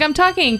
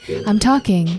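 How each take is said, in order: First: The voice is plain, at normal pitch. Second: The voice is lower, warmer and smiling.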